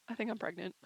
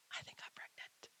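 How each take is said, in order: First: Said in the usual way. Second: A soft unvoiced whisper of the secret; whispered confession. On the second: Real, not acted. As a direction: barely dare to say it aloud. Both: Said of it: "There, I said it".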